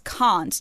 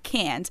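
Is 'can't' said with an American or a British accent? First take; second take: British; American. First: The vowel is broad, as in father. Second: The vowel is flat, as in cat. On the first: The speaker calls it right. "it's can't" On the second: The speaker calls it wrong. "not can't"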